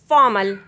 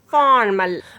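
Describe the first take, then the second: First: British accent, with the R left silent. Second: American accent, with the R pronounced. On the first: "British English say formal" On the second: "American English say formal"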